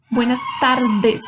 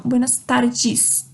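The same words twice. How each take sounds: First: "tardes" ending in a hard "des", not "djis"; tapped r, then plain "des" in "tardes". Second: "tardes" ending in "djis", as a Brazilian would; wrong Portuguese D. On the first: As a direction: say "tardes" with a pure Spanish d. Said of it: "é um som de D". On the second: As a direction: say "tardes" as "tardjis". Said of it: "E não buenas tardes". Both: Shown as a demonstration.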